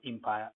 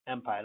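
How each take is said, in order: First: Empire opened with "im", short I; wrong first vowel. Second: Empire opened with "em", E as in let; correct first vowel. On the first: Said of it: "not empire". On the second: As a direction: say empire with an open "eh" start. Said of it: "empire, not empire". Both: Shown as a demonstration.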